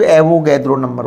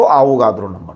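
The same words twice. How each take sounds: First: एवोगैद्रो said with English vowels, "AE-vo-GAED-ro"; anglicized pronunciation. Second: आवोगाद्रो with long "aa" vowels, "AA-vo-GAA-dro"; speaker's own pronunciation. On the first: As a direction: open एवोगैद्रो with a short "ae" and put "gaed" in the middle. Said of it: "कई लोग इसको एवोगैद्रो number बोलते हैं". (एवोगैद्रो में "ऐ" वाला अंग्रेज़ी उच्चारण) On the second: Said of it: "मैं इसको आवोगाद्रो नंबर बोलता हूँ". (आवोगाद्रो में लंबे "आ" वाला उच्चारण) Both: Shown as a demonstration.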